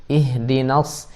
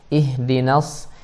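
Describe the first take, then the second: First: The 'na' is said thin and light. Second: The 'na' is said thin and light.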